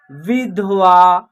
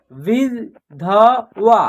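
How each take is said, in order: First: Said in the usual way. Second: "विधवा" as वि, ध, वा with gaps; spelled out by syllable. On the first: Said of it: "एक शब्द तैयार हो जाएगा". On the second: Shown as a demonstration. Teacher sounding out a word, "विधवा" syllable by syllable. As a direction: separate all three sounds of "विधवा", very slowly. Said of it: "तीनों को जोड़ेंगे तो एक शब्द".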